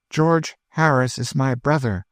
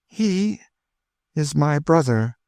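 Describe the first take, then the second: First: Proud. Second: Tearful. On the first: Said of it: "lifting her head proudly". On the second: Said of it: "burst into tears". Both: A narrator's reading.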